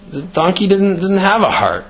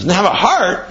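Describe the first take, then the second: First: "didn't have a heart" as a statement, falling at the end; matter-of-fact claim. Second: "Didn't have a heart" thrown back as a question; incredulous echo. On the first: Fox excuses the missing heart to lion, "didn't have a heart" stated. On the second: Lion doubts fox's excuse, "Didn't have a heart" as incredulous question. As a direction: query "Didn't have a heart" in disbelief, raised pitch. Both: Retold or imitated.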